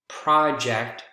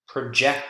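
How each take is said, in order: First: The stress is on the first syllable. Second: The stress is on the second syllable. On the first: It is a noun naming a piece of work. "first syllable is the strongest in nouns" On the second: It is a verb meaning to put on a screen. "second syllable is the strongest in verbs"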